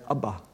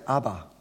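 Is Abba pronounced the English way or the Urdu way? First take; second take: Urdu; English. First: The word is pronounced the Urdu way. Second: The word is pronounced the usual English way. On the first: "In Urdu, although it's spelt the same way, it's pronounced Abba" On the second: "we pronounce it Abba"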